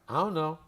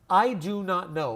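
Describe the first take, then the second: First: The words are reduced and run together quickly. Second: Each word is said fully and separately.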